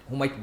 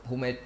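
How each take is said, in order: Both takes have the same delivery.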